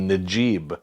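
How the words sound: The name begins with a j sound.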